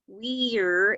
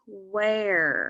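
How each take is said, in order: First: The vowel sounds like 'ee'. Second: The vowel sounds like 'uh'. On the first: The speaker calls it wrong. "instead of e" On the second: The speaker calls it right. "they make an uh, an uh sound"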